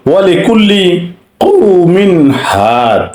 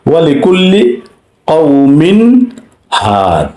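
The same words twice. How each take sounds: First: Very slow chant, কওমিন ending in a clear n before হাদ; drawn-out tajweed reading; slow recitation demo. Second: কওমিন হাদ recited again, n clear; tajweed example once more; recitation repeated. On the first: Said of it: "স্পষ্ট করতে হয়েছে". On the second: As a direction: repeat with izhar on the tanween. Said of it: "এজাহার হয়েছে". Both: Shown as a demonstration.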